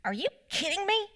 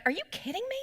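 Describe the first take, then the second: First: Put-on high kid's voice, fed up, are you kidding me; imitating exasperated four-year-old. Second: Higher, fed-up mock outrage; exasperated at other drivers. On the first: Mom imitating her four-year-old son's exasperated outburst, high kid voice. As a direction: mom voicing her son copying her road rage. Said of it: "and he goes". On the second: Mom retelling her own outburst at line-cutting drivers, higher and exasperated. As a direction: throw your hands up at the car cutting in. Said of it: "I'd be like".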